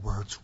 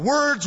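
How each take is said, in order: First: It is said quietly and calmly. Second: It is said with loud, fervent energy. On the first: "He calmed down as if bringing it back to the appeal" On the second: "give an evangelistic appeal"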